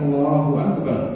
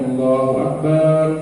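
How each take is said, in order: First: All the vowels are kept at normal length. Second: One vowel is drawn out noticeably long. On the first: The speaker calls it right. "Tahu bagaimana dia harus mengucapkan Allahu Akbar" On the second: The speaker calls it wrong. "Tidak boleh ... maknanya berbeda, batal sholatnya. Sekedar memanjangkan satu huruf"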